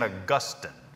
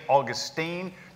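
First: It is said with the original stress placement. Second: It is said like the Florida city's name. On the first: It follows the name's original form. The speaker calls it right. "the proper way to say it would be St. Augustine" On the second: It is a relaxed regional habit. The speaker calls it wrong. "I sometimes slip off into St. Augustine just because I am a North Carolinian"

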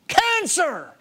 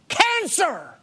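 Both takes have the same delivery.

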